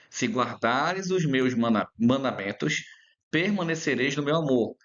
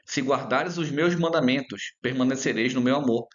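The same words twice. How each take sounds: First: It is read slowly, with pauses. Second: It is read at a normal pace.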